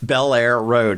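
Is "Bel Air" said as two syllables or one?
two. "Bel Air" is said as two separate syllables.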